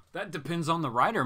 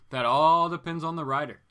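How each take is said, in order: First: Said in the usual way. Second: Loud, stretched emphasis on "all"; stress on "all". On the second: Real, not acted. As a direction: lean long and hard on "all".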